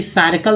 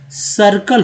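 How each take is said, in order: First: सर्कल read as "saa-ir-kul"; long open first syllable in सर्कल, "SAAR-e-kul"; wrong reading. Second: सर्कल as "sur-kul"; short neutral first vowel in सर्कल; slow, clear "SUR-kul" for सर्कल; correct reading. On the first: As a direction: misread सर्कल with the i of "tyre". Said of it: "तो नहीं होता". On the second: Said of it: "सर्कल होता है". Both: Shown as a demonstration.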